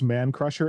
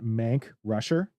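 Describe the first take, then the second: First: The k sound starts the second word. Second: The k sound ends the first word. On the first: "pronounced Man Crusher" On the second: "and not Mank Rusher"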